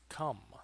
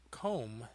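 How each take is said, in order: First: The vowel is a short 'uh' sound. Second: The vowel is a long 'oh' sound. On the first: The speaker calls it right. "it is come" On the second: The speaker calls it wrong. "This is not comb"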